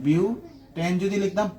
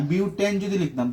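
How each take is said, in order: First: Drawn out slowly, word by word; slow teacher repeat of butane যদি লিখতাম; slow emphatic repeat. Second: Said in the usual way. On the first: Shown as a demonstration. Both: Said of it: "বিউটান কেন লিখতেছি বারবার?".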